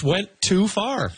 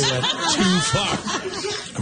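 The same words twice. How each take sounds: First: Said in the usual way. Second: "too far" stretched out slowly, higher; comic stress on too. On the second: Real, not acted. Panelist repeats the roast punchline, "too far" drawn out. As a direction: draw out "too far" through a laugh.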